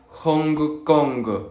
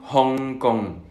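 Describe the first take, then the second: First: A hard g is heard after the ng. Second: The ng ends with no hard g. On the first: The speaker calls it wrong. "tendemos a pronunciar la G" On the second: The speaker calls it right. "no hay que pronunciar esa G"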